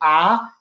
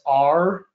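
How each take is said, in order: First: The letter is said in a Boston accent. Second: The letter is said in a Baton Rouge accent.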